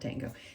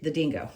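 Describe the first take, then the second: First: The first vowel sounds like 'ah'. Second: The first vowel sounds like 'ih'. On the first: The speaker calls it wrong. "not dango" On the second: The speaker calls it right. "it's di the dingo"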